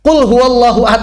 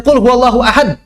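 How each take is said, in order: First: "Qul huwallahu ahad" with a bounce on the stopped q and d; reading with qalqalah. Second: "Qul huwallahu ahad" with flat, unbounced q and d; reading without qalqalah. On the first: (baca "Qul huwallahu ahad" dengan qalqalah yang jelas) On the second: (baca "Qul huwallahu ahad" tanpa qalqalah, cara yang salah) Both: Shown as a demonstration. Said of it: "Aib kalau antum yang baca begitu".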